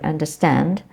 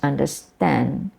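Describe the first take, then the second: First: The final d sound is pronounced. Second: The final d sound is dropped. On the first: "Instead of understand" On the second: "it becomes understand"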